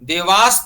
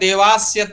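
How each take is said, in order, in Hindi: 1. शब्द सादे 's' ध्वनि पर खत्म होता है। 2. शब्द 'sya' अक्षर पर खत्म होता है। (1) "केवल हलंत स है" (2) "कोई बोल रहा है देवास्य तृप्यताम, तो देवास्य गलत हो जाएगा"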